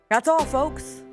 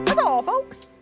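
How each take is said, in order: First: It is said in a normal speaking voice. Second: It is said in a put-on cartoon voice.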